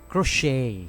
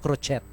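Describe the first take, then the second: First: The final T is not pronounced. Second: The final T is pronounced. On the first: The speaker calls it right. "Silent T siya" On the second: The speaker calls it wrong. "Hindi siya crochet"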